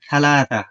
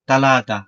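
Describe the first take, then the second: First: The word begins with an aspirated th sound. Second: The word begins with a plain t sound.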